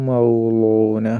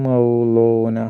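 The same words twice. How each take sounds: No difference in how they are said.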